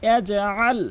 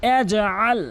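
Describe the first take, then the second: The two takes are said the same way.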